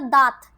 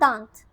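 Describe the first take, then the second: First: The vowel is said without nasalization. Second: The vowel is said with nasalization. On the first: It has no meaning. The speaker calls it wrong. "अगर ये नहीं होता तो शब्द बनता" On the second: It means tooth. The speaker calls it right. "चंद्र बिंदु के बाद"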